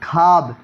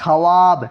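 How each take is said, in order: First: خواب said khaab, with no w; silent waw. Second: خواب said kha-waab, sounding the w; spelling pronunciation. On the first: Teacher shows how the word is read, silent waw. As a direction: say خواب as one syllable, khaab. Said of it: "پڑھا جائے". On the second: Teacher shows how the word is written, waw sounded. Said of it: "لکھا ہے خواب". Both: Shown as a demonstration.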